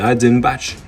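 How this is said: It is pronounced with a French accent. The speaker calls it wrong. "on pourrait dire en français Hatzenbach"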